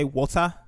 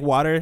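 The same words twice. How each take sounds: First: "water" in a Nigerian accent, ending in an open ah. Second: Said in the usual way. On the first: Shown as a demonstration. Speaker showing how Nigerians say "water", Nigerian accent. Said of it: "Nigerians, instead of saying". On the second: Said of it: "instead of saying".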